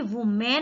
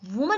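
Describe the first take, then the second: First: The second vowel sounds like 'eh'. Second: The second vowel sounds like 'uh'. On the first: The speaker calls it wrong. "वो भी वुमेन नहीं होता है" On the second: The speaker calls it right. "वुमन होता है"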